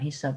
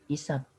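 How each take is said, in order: First: The word begins with an h sound. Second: The word begins directly with a vowel. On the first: The speaker calls it wrong. "bukan hisab" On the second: The speaker calls it right. "Yang benar itu"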